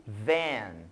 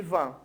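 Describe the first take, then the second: First: Van said as in English, not Portuguese. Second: Van said as in Portuguese. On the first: Teacher contrasts English van with Portuguese van. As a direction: give van its English sound. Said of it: "a sua pronúncia em inglês é um pouco diferente". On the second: Teacher shows the Portuguese van to contrast it. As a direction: give van its Brazilian Portuguese sound. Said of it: "ao invés de van". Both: Shown as a demonstration.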